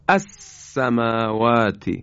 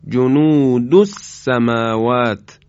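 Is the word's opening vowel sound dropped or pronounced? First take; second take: pronounced; dropped. First: The word begins with a pronounced glottal a-vowel. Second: The opening vowel is dropped, linked to the previous word.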